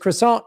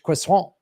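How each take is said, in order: First: The word is said with English pronunciation. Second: The word is said with French pronunciation.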